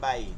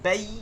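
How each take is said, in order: First: The syllable is said softly and quickly. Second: The syllable is said hard, not softly. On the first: The speaker calls it right. "একদম নরম করে" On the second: The speaker calls it wrong. "এরকম বলা যাবে না।"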